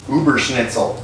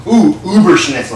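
First: Said in the usual way. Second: "Uberschnitzel" said louder, higher, relishing it; delighted. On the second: Shown as a demonstration. Cook relishes his invented dish name "Uberschnitzel". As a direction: savour "Uberschnitzel" like a prize find. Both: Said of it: "I kinda like that".

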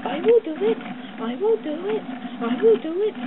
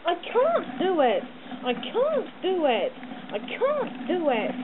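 First: High, loud, stressing will; determined puffing. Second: Slow, strained, panting; puffing. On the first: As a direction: grit out I will do it with effort. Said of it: "puffed Edward". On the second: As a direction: push each word out with effort. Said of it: "puffed Gordon". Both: A narrator's reading.

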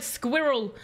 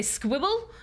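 First: Said in the usual way. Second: "squibble" with the r softened to a w sound; speech-impediment "squibble", r lost to w; childhood mispronunciation. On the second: Shown as a demonstration. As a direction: say "squibble" as a child who can't make r. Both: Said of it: "would originally try to say".

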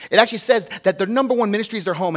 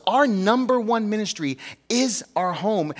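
First: Fast run through "their number one ministry is their home"; quick citing. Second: Slow each word of "our number one ministry is our home"; slow emphatic statement. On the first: Pastor quickly quoting scripture, fast. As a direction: rattle it off as a reference. Same line rushed as citation. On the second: Pastor driving his main point home, slow. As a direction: lean on "number" and draw the line out. Key line restated slowly. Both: Real, not acted.

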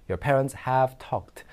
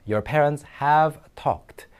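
First: Said in the usual way. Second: Your parents have talked, very slow with have stressed; slow teacher read of Your parents have talked; slow model reading. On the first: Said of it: "repeat at normal pace". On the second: Shown as a demonstration. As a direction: model each word slowly for learners. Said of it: "teacher models sentence slowly".

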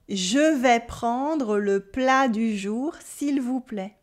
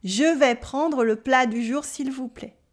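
First: Slow, careful French model sentence; slow repeat. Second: The same sentence at a natural brisker pace; a bit faster. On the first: Teacher repeating the order slowly for students to copy. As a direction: spell it out slowly for learners. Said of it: "Repeat after me". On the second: Teacher giving the final faster take to learners. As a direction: speed it up a little for the last take. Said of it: "a bit faster". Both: Shown as a demonstration.

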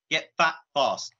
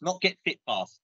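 First: Fat stressed and drawn out, slow. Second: Said in the usual way. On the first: Shown as a demonstration. Naming his show to the hosts, slow stress on fat. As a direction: land on fat firmly, slowly. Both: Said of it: "we call it get fat fast".

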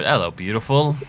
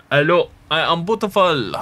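First: Said in the usual way. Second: Hammed-up Italian accent, higher and louder; bad Italian accent. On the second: Player greets something beautiful in the game, hammed-up Italian accent. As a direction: put on a badly faked Italian accent. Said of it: "Became Italian. Can't really do an Italian accent".

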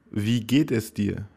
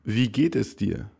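Both takes have the same delivery.

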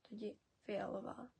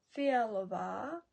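First: Фіалова said with the а read like я, softer; corrected pronunciation. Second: Фіалова slow and louder, every syllable clear; Czech word for purple. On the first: Teacher gives the corrected Czech reading of фіалова. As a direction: read фіалова as фіальова, quietly. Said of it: "Це більше читаємо як я". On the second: Teacher models Czech Фіалова slowly and loudly for learners. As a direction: stretch out Фіалова, pronounced as written. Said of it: "Там пишемо А". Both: Shown as a demonstration.

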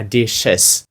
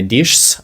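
First: "dishes" in two syllables, "dish-ez"; correct plural. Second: "dishes" squeezed into one syllable, like "dishs"; wrong plural. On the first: Teacher shows students the correct plural, "dishes" as two syllables. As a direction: add the extra syllable in "dishes", clearly. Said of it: "буде ще один додатковий звук ... а dishes". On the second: Teacher shows students the wrong plural, "dishes" as one syllable. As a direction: say "dishes" with no extra vowel, as the wrong form. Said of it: "буде ще один додатковий звук, не dishes". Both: Shown as a demonstration.

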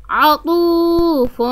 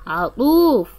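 First: عطوف stretched slowly and higher, heavy ط; slow emphatic ط. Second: Said in the usual way. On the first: Shown as a demonstration. Teacher showing the ط in عطوف, slow and high. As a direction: draw out عطوف leaning on ط. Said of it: "طريقة نطق حرف الطاء". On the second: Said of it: "طريقة نطق".

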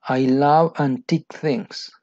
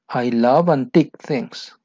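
First: Slow with a falling love; slow model line. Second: Slow again, love stressed; steady slow model; slow repeat. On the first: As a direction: read it slowly for learners. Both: Shown as a demonstration. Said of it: "dialogue line read twice".

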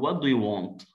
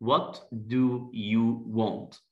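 First: Said in the usual way. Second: Very slow, each word apart; slow question drill. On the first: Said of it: "هقول له". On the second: Shown as a demonstration. Teacher slowly asking a shy guest. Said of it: "عايز أسأله".

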